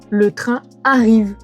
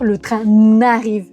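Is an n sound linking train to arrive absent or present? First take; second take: absent; present. First: No n sound links train to arrive. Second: An n sound links train to arrive. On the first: The speaker calls it right. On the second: The speaker calls it wrong. "Vous ne pouvez pas dire le train n'arrive"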